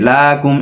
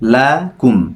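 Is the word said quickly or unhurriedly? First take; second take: quickly; unhurriedly. First: The word is said quickly and rushed. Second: The word is said slowly and unhurriedly. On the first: The speaker calls it wrong. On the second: The speaker calls it right.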